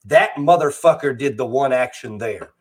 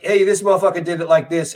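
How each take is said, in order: First: Lower, tidier, more formal delivery; proper voice for white people. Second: Loose, easy street-talk delivery; casual with friends. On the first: Code switching to talk to white people, formal proper delivery. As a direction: straighten up the speech for a white listener. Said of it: "talk to white people". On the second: Talking to black friends, relaxed casual delivery. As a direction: toss it off like chatting with the boys. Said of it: "if I'm sitting here talking to you fellas". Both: Retold or imitated.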